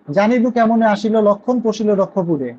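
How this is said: It pauses at the punctuation, after রক্ষপুরে.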